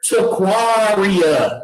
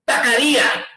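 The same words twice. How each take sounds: First: The name is said slowly. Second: The name is said fast.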